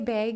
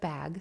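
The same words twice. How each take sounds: First: The vowel has a Pacific Northwest, Canadian-like sound. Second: The vowel has a standard, non-regional sound. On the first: This is how the speaker naturally says it. "I grew up near Seattle, which is close to Canada, and I do say bag" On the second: This is how others usually say it. "instead of bag"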